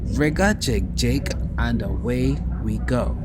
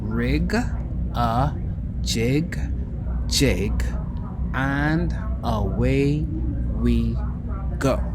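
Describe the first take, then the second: First: The phrase is said at a quicker pace. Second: The phrase is said at a slower pace. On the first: "I'll say that again" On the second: "I'll say it slower"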